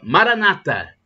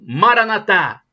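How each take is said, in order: First: The stress is on the second-to-last syllable. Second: The stress is on the last syllable. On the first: This is the Protestant way of saying it. "Os protestantes dizem com a tônica na penúltima sílaba" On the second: "Como dizem os católicos, com a tônica na última sílaba"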